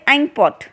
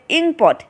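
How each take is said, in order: First: The word begins with an 'eye' sound. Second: The word begins with a short 'ih' sound. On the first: The speaker calls it wrong. "We don't say inkpot" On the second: The speaker calls it right. "We call it inkpot. So when we call inkpot, we can hear the vowel sound e"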